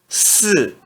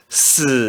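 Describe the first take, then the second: First: The pitch falls sharply from high. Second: The pitch dips low then rises. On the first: "E no quarto tom" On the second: "No terceiro tom"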